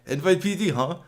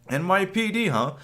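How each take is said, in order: First: It is said in a put-on German accent. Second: It is said in a plain, unaccented voice.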